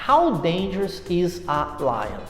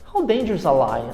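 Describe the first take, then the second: First: The words are spoken slowly and kept apart. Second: The words are spoken quickly and run together. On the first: "falando pausadamente" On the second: "você vai conversar com um americano e ele chega para você e fala"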